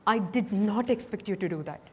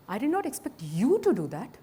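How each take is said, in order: First: "I" hit first, then falling; stress on I. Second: "to" lifted, rising end; weight on "to", end on a rise; stress on to. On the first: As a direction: put the weight on "I". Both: Shown as a demonstration. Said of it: "by stressing different words".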